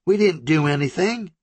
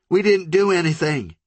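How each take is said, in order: First: High, pleading, stuck on DIDN'T; shaking denial again. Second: High, trembling plea with DIDN'T pressed; shaking denial. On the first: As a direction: repeat it numbly in fear, leaning on didn't. Country repeats her denial. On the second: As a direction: insist in terror, leaning on didn't. Country begins to shake. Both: Acted.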